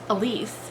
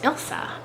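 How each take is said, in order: First: The name is said as e-LEESE. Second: The name is said as ILL-sa. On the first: The speaker calls it wrong. "I've been calling Elise" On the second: The speaker calls it right. "it's actually pronounced Ilsa"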